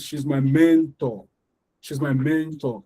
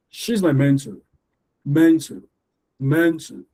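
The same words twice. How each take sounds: First: "mentor" as MEN-TOR, full final syllable; wrong, both syllables heard. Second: "mentor" stressed on MEN, the ending reduced to "tuh"; "mentor" as MEN-tuh, light second syllable; one syllable stressed. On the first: Teacher showing the wrong one, "mentor" with both syllables full. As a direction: give both halves of "mentor" equal weight. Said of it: "the wrong one is". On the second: Teacher showing correct stress, "mentor" with a reduced ending. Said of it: "you should stress one". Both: Shown as a demonstration.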